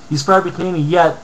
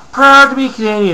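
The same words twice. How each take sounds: First: Said in the usual way. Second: Mocking quote. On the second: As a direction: read out high and loud with scorn. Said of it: "another fucking idiot".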